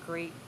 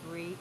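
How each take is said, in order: Both takes have the same delivery.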